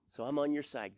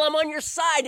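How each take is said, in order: First: Said in the usual way. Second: I'm on your side, loud and high, falling hard on "on"; God firmly assuring the pastor, loud; firm declaration. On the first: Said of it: "his surrender reply to God". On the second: Retold or imitated. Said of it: "He was so firm with me".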